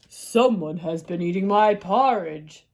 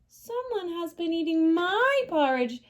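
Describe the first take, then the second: First: It is said in a big, deep voice. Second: It is said in a tiny, small voice.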